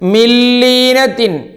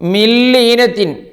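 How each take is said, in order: First: The n merges into a doubled l sound. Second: The same.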